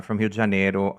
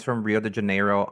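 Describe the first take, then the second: First: "Rio de Janeiro" with a Brazilian h-like R in Rio; "Rio de Janeiro" pronounced as in Portuguese, starting "Hio"; Brazilian Portuguese pronunciation. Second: Said in the usual way. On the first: Real, not acted.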